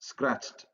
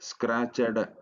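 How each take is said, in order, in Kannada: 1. ಕೊನೆಯ ಭಾಗ ಒಂದೇ ಉಚ್ಚಾರಾಂಶವಾಗಿ ಸೇರಿಸಲಾಗುತ್ತದೆ. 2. ಕೊನೆಯ ಭಾಗ ಹೆಚ್ಚುವರಿ ಉಚ್ಚಾರಾಂಶವಾಗಿ ಹೇಳಲಾಗುತ್ತದೆ. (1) "ಸ್ಕ್ರಾಚ್ಡ್ ಸ್ಕ್ರಾಚ್ಡ್" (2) "ಸ್ಕ್ರಾಚಡ್ ಅಂತ ನಾವು ಉಚ್ಚಾರಣೆ ಮಾಡಲ್ಲ"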